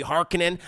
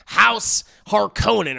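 First: Harkonnen with stress on HAR, HAR-kuh-nen; short unstressed middle in Harkonnen; movie pronunciation. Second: Harkonnen with a long OH, har-KOH-nen; own pronunciation. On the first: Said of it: "as they say in the movie". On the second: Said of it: "or as they say in the movie". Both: Shown as a demonstration.

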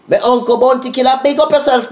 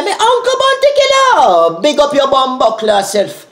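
First: Said in the usual way. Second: Much higher, louder hyped call with a put-on voice; high hyped shout-out. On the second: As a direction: fling it up high like a dancehall hype man. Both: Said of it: "Me say".

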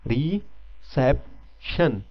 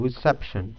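First: reception drawn out slowly, three clear syllables; slow, deliberate classroom pronunciation; slow syllable demo. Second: reception with the second syllable SEP stressed; teacher marking stress on the middle syllable. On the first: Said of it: "अभी आप pronounce करें इसको". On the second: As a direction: hit SEP in reception, ri-SEP-shən. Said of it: "stress बन रहा है". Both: Shown as a demonstration.

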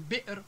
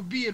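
First: Said in the usual way. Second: بير as biir, long vowel; dropped hamza. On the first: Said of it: "بدل من بئر". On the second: Shown as a demonstration. Teacher showing lost hamza, بير as biir. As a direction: say بير with no glottal stop. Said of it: "تحال إلى حرف علة".

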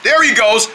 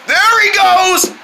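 First: Said in the usual way. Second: Slow, high, stretched out; drawn-out high announcement. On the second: Acted.

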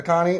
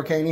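First: Connie, said KAH-nee; first pronunciation variant. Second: Caney, said KAY-nee; alternative pronunciation. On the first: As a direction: say Connie with an open "ah" first vowel. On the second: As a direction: say Caney with a long "ay" first vowel. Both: Shown as a demonstration. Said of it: "however you pronounce it".

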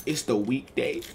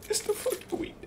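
First: Said in the usual way. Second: High squeaky weekday complaint; mock high whine. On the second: Guy complains about the weekday party, squeaky whine.

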